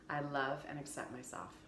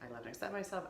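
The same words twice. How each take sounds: First: It is said slowly. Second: It is said fast.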